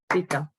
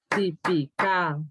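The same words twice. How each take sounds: First: The stress is on the first syllable. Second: The stress is on the last syllable. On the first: "es esa muchacha típica" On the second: "Y si fuera aguda diría típica"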